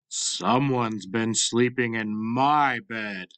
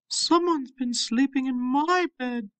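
First: It is said in a big, deep voice. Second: It is said in a medium-sized voice.

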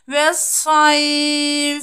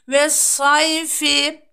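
First: The ending is dropped and the vowel is lengthened. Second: The word ends with its full final vowel ending.

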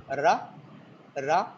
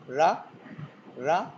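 Both takes have the same delivery.

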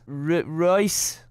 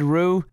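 First: The name ends in an 'oyce' sound. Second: The name ends in an 'oo' sound. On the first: The speaker calls it right. "I know it's pronounced Royce" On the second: The speaker calls it wrong. "I said Rue"

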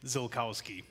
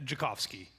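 First: The surname is said with American pronunciation. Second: The surname is said with Polish pronunciation. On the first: This is how it is said in America. "If you're in America, you'd say Zilkowski" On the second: This is how it is said in Poland. "if you were in Poland, that's how you would say it"

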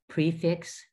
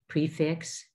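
Both takes have the same delivery.

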